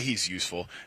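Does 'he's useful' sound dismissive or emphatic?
dismissive. It is said in a flat, dismissive way. He is only marginally valuable.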